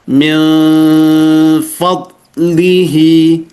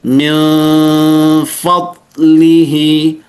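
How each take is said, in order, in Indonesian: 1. Bibir sedikit terbuka, menyisakan celah kecil. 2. Bibir sedikit terbuka, menyisakan celah kecil.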